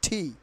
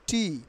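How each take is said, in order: First: The t sound is aspirated. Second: The t sound is unaspirated. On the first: The speaker calls it right. "টি তোমার ঠি এর মতো উচ্চারিত" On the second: The speaker calls it wrong. "Not টি"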